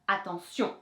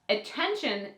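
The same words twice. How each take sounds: First: The stress falls on the last syllable. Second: The stress falls before the last syllable. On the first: "accentuate that last syllable" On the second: "in English"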